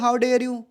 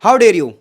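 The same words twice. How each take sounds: First: It is said flatly, without feeling. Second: It is said with strong, lively emotion.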